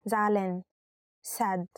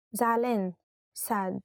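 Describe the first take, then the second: No difference in how they are said.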